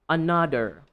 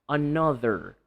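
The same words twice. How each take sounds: The two takes are said the same way.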